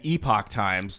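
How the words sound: Epoch is pronounced the British English way. "British English"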